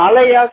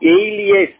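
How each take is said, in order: First: The word sounds like 'a-lie-as'. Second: The word sounds like 'ay-lee-as'. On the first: The speaker calls it wrong. "இது அலையாஸ் கிடையாது" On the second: The speaker calls it right. "இதோட pronunciation வந்து பாத்தீங்கன்னா ஏலியஸ்"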